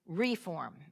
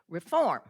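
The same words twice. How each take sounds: First: The stress is on the first syllable. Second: The stress is on the second syllable. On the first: This is the local name of the town. "But in Pickens County, it's reform" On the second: This is the word's general English use. "The accent's on the second half"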